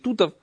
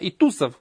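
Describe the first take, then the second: First: The last consonant is a t sound. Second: The last consonant is an s sound. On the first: "на сефардском произношении" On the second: "как говорят на скинанском"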